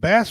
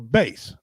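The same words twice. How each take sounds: First: It is pronounced as the fish name. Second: It is pronounced as the music word. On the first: The fish. "You call it bass fish" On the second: The instrument. "or bass, like you play in a, in a uh, band"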